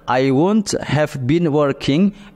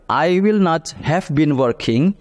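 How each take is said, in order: First: Will not is contracted into one syllable. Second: Will not is said as two full words.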